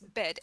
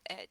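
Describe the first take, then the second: First: The word begins with a clear b sound. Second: The word begins without any b sound. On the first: The speaker calls it right. "this is bed" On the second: The speaker calls it wrong. "and not Ed"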